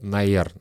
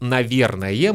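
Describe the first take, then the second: First: The word is squeezed into two short syllables. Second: The word is said in full, all syllables.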